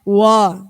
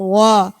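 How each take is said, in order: The two takes are said the same way.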